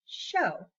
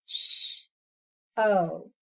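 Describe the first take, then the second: First: Said in the usual way. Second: "Sh-, oh" as hushing sound, pause, long vowel; segmented sounds. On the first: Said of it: "How about show". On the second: Shown as a demonstration. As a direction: break "Sh-, oh" into two separate sounds. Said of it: "into two different sounds".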